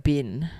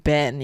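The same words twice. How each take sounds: First: Bin said for Ben, with the vowel raised to i; a Kiwi-style Bin for Ben. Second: Said in the usual way. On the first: Retold or imitated. Explaining the Kiwi accent, the Kiwi Bin. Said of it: "they go, like". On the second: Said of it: "they say".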